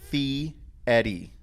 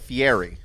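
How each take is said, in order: First: It sounds like 'fee' followed by 'Eddie'. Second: The ending does not sound like 'Eddie'. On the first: The speaker calls it right. "It's actually Fieri. ... like the name Eddie, with a fee in front of it" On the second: The speaker calls it wrong. "I called it Fieri, and it's not"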